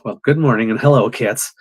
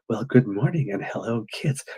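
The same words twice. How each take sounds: First: The greeting sounds heated, angry and aggressive. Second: The greeting sounds calm, warm and soothing. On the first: The host is frustrated and upset. The speaker calls it wrong. "that's what I was feeling on the inside" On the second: The host is in a good mood. The speaker calls it right. "they like my voice and that it's soothing"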